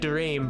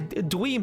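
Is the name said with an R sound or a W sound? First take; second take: R sound; W sound. First: The name is said with a normal R sound. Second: The R sound is replaced by a W sound. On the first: "I'll occasionally be like" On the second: "it's just more fun to add the W in"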